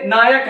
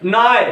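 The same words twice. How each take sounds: First: Said in the usual way. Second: "नाय", the final क left off; last syllable dropped. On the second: Shown as a demonstration. Teacher demonstrates his spotting trick, "नाय" without final क. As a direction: say "नाय", stopping before the last consonant. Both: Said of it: "last वाला शब्द मत बोलो".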